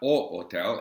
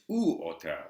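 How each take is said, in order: First: The first word sounds like an o. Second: The first word sounds like a u. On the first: The speaker calls it wrong. "It's not O hotel" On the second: The speaker calls it right. "it's U hotel"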